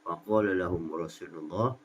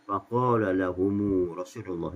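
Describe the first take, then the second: First: The m of lahum is closed with no vowel. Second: The m of lahum takes a two-beat u vowel.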